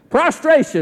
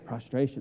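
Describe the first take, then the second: First: The word is said in a proud, boastful tone. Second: The word is said in a quiet, humble tone. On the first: The speaker is showing off. The speaker calls it wrong. "It's hard to say that in a proud way" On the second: The speaker is bowing down in humility. The speaker calls it right. "I don't want to say that too loudly"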